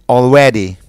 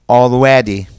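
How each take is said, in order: The two takes are said the same way.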